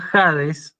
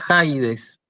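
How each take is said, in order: First: The first vowel is a plain 'a' sound. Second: The first vowel is an 'ai' glide sound. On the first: The speaker calls it right. "se pronuncia Hades" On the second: The speaker calls it wrong. "no se pronuncia Jaides"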